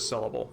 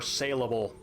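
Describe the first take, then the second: First: The first syllable sounds like 'sell'. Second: The first syllable sounds like 'sale'. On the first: "my mouth will not agree and says sellable" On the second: "in my head it is saleable"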